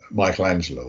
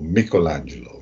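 First: Said in the usual way. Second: Michelangelo said the Italian way; Italian pronunciation. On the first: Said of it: "if you prefer the Italian". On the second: Shown as a demonstration. Biographer offers the Italian version of the painter's name, Italian pronunciation. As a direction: say Michelangelo as in Italian, with a hard k in Mich. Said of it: "if you prefer the Italian pronunciation".

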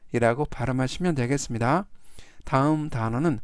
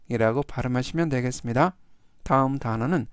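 The two takes are said the same way.

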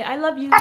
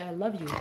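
First: "I love you" lifted high and sung to the dog; pet talk prompt. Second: Soft prompt. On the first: Owner prompting her dog, high sing-song "I love you". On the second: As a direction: model "I love you" quietly for the dog to copy. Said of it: "No, say". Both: Shown as a demonstration.

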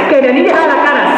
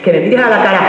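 First: Higher, pushier repeat of the demand; insistent demand. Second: Said in the usual way. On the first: Acted. Girlfriend demanding her boyfriend look at her, insistent. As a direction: insist harder the second time.

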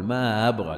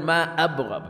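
First: ما أبغى with the hamza softened, not fully stopped; eased hamza. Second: ما أبغى with a full, clear glottal stop on أ; full hamza. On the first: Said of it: "لا يحقق الهمزة". (ما أبغى بهمزة مسهلة) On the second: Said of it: "لا يقول". (ما أبغى بهمزة محققة خالصة) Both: Shown as a demonstration.

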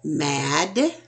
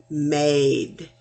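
First: Said in the usual way. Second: "made" with a long A, slow and clear; contrasting "made" with "mad"; long vowel. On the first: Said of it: "instead of mad". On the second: Shown as a demonstration. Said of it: "becomes made".

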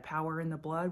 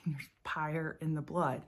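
First: Said in the usual way. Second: POWER said as "PYRE", Louisiana country style; country pronunciation. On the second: Shown as a demonstration. Recalling how her church back home sang it, country pronunciation. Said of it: "We would sing There's Pyre".

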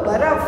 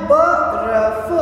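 First: Said in the usual way. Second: बर्फ stretched out very slowly; slow, careful बर्फ; बर्फ blended slowly; slow blending. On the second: Shown as a demonstration. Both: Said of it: "अपन को क्या बोलना है".

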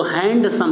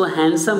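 First: हैंडसम with the ड sounded, हैंड-सम; the common mistake, हैंडसम with the d heard; wrong handsome. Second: हैंडसम with a silent ड, हैनसम; correct handsome. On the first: Teacher showing the wrong way: हैंडसम with ड said aloud. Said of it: "हैंडसम नहीं कहते भाई". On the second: Teacher modeling the right way: हैंडसम as हैनसम. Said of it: "इसका सही pronunciation क्या है". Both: Shown as a demonstration.

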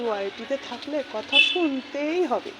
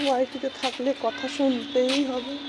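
First: Lightly voiced quote, a touch higher; quoting a retort. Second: Said in the usual way. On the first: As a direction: say it as if quoting someone else. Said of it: "আবার বলে নাকি". (অন্যের কথা নকল করে বলা) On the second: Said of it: "কি করব".

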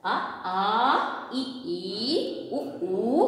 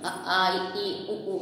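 First: "ఆ, ఆ, ఇ, ఈ, ఉ, ఊ" slowly, each second letter drawn out long; short then long in each pair of "ఆ, ఆ, ఇ, ఈ, ఉ, ఊ"; long second vowels. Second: "ఆ, ఆ, ఇ, ఈ, ఉ, ఊ" with every vowel cut short; wrong short vowels. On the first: Teacher modelling for pupils, "ఆ, ఆ, ఇ, ఈ, ఉ, ఊ" with every second vowel held long. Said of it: "రెండో అక్షరానికి దీర్ఘంతో పలకాలమ్మా". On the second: Teacher mimicking pupils' wrong recitation, "ఆ, ఆ, ఇ, ఈ, ఉ, ఊ" all short. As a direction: run "ఆ, ఆ, ఇ, ఈ, ఉ, ఊ" together, no long second letter in each pair. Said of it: "అలా చదవద్దు".

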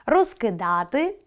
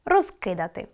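First: Розкидати with stress on да, slow rising; розкидати, lean on да. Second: Розкидати with stress on роз, falling; розкидати, hit the first syllable роз. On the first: Teacher giving the imperfective, stress on да. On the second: Teacher giving the perfective, stress on роз. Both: Shown as a demonstration. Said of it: "Наголос допомагає розрізняти види".

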